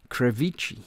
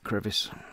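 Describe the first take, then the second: First: It is said in a mock Italian accent. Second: It is said in a plain English accent.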